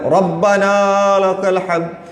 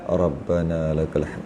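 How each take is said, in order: First: It is said loudly and forcefully. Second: It is said softly and quietly.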